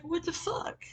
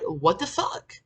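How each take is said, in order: First: Much higher, stunned disbelief; high incredulous what the fuck. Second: Said in the usual way. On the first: Retold or imitated. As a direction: react like you can't believe your eyes. Shocked at car blocking door.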